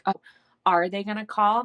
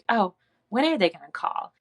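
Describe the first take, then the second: First: It sounds anxious and desperate. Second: It sounds light and playful.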